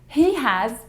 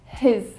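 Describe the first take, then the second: First: It is said as two full words. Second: It is shortened to one syllable.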